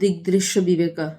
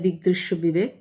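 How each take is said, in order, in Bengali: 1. শেষ শব্দটি 'a' স্বরধ্বনি দিয়ে শেষ হয়। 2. শেষ শব্দটি একটি খালি ব্যঞ্জনধ্বনি দিয়ে শেষ হয়। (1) "আসল উচ্চারণ" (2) "বাংলায় বললে"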